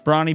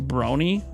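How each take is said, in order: First: The first vowel sounds like 'lawn'. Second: The first vowel sounds like 'pony'. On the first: "you've been pronouncing Brawny in my name wrong" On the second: "It's pronounced like pony"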